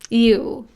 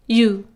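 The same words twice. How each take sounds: First: A slight glide sound comes before the vowel. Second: The vowel starts directly with no extra glide. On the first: "there's a slight E sound in the beginning" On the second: "you can remove the E sound and just say you"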